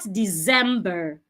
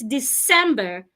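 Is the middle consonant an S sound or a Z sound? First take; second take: Z sound; S sound. First: The middle consonant is a buzzing Z sound. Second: The middle consonant is a hissing S sound. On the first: The speaker calls it wrong. "The C does not sound like Z" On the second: The speaker calls it right. "It's December"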